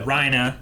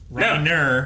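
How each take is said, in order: First: The name ends in a vowel, with no R. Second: The name ends with a clear R sound.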